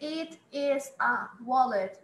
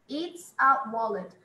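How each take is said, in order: First: "It is" is said as two full words. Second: "It is" is contracted to one syllable. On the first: This is correct but rarely used in daily speech. "dificilmente as pessoas falam assim" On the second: This is the everyday way people say it. "elas falam it's mesmo"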